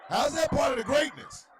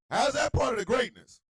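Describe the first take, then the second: First: High, loud question through laughter; incredulous laughing shout; laughing disbelief. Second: High, loud demanding question; straight-faced loud demand; indignant shout. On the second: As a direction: press the point without laughing. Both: Real, not acted. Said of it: "repeated take".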